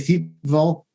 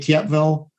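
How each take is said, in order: First: The name is said with English-style sounds. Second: The name is said with French-style sounds. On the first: "sort of anglicized" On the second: "like a Franco way of pronouncing that location"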